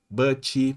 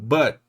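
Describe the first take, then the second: First: An extra ee vowel follows the final t. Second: It ends cleanly on the final t sound.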